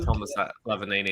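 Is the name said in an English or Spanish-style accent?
English. The name is said with a plain English accent. The speaker calls it wrong. "it's not uh"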